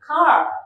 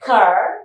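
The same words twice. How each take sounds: First: It is said in a British accent. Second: It is said in an American accent. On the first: "British pronunciation చేసినప్పుడు" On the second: "కానీ Americans pronounce చేయాలి"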